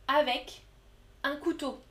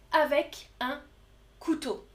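The two takes are said the same way.

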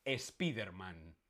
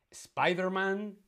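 First: "Spiderman" hispanicised as es-PEE-der-man; Spanish pronunciation. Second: "Spider-Man" with SPY as in English; English pronunciation. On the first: Teacher offering the second quiz option, Spanish pronunciation. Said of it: "la correcta es que lo pronunciamos". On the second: Teacher offering the first quiz option, English pronunciation. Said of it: "no Spiderman". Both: Shown as a demonstration.

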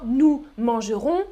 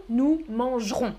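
First: Mangerons in three syllables, man-ge-rons; full E. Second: Mangerons in two syllables, manj-rons; dropped E. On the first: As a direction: sound the middle E in mangerons. (« mangerons » avec le E, man-ge-rons) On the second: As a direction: cut the middle E in mangerons. (« mangerons » sans le E, manj-rons) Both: Shown as a demonstration. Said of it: "On coupe le E".

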